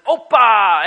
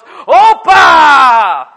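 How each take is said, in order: First: Loud cheerful call of greeting; festive shout. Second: Higher, louder roaring echo of the cheer; the whole room shouting it back; group shout. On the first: One guest greeting the family gathering, shouting. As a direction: bellow it to the room like a party guest. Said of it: "someone says". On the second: Whole family shouting back to the newcomer, louder. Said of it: "everyone else goes". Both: Retold or imitated.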